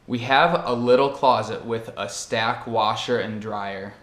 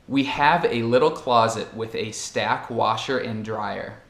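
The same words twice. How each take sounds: First: The article a is reduced to a weak vowel. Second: The article a is said with a full vowel. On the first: "que se torna" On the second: "E a frase é"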